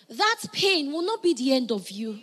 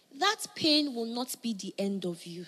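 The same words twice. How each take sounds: First: Stronger, more emphatic repeat; louder repeat. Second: Said in the usual way. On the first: Shown as a demonstration. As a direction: press it home the second time. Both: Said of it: "I'm gonna say it again".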